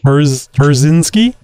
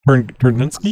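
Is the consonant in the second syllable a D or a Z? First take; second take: Z; D. First: The second syllable starts with a Z sound. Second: The second syllable starts with a D sound. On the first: The speaker calls it right. "There you go" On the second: The speaker calls it wrong. "Not with a D"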